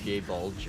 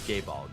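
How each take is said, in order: First: The second word sounds like 'bulge'. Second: The second word sounds like 'bolg'. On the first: This is said as a joke. The speaker calls it wrong. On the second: This is the real name. The speaker calls it right. "that's how you actually pronounce it"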